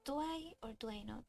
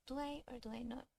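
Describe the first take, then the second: No difference in how they are said.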